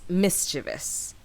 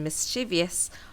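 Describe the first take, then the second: First: The word is said with three syllables. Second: The word is said with four syllables. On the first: The speaker calls it right. "So it's mischievous" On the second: The speaker calls it wrong. "the four-syllable pronunciation mischievous are generally regarded as non-standard"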